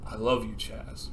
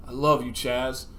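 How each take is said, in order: First: Much softer, lower, heartfelt correction; mean it as romantic love, hushed; dying confession of love. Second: Simple, understated last words; dying declaration. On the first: Dying Rex confessing to Chaz, soft and low. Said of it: "And Rex goes, "No". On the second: Dying Rex to his best friend, understated declaration. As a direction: say it gently, as if to a close friend. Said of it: "with his last breath". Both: Acted.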